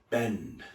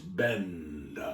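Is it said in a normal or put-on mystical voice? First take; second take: normal; put-on mystical. First: It is said in his normal voice. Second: It is said in a put-on mentalist voice.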